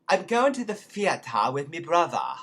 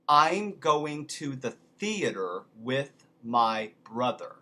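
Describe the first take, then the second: First: It is said in a Cockney accent. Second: It is said in a standard accent. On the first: "There you go" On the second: "here's another one"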